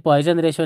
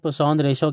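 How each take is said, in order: First: The first word sounds like English 'poison'. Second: The first word sounds like 'pusaun', without a z. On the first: The speaker calls it wrong. "ये पॉइजन ratio नहीं है" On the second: The speaker calls it right. "बल्कि ये पुसौन ratio कहते हैं इसको"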